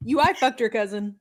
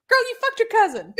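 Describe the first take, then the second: First: Said in the usual way. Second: Emphatic. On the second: Real, not acted. Blunt punchline to co-host.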